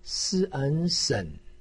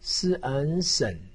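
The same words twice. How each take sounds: First: The pitch dips low, then rises. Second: The pitch dips low, then rises.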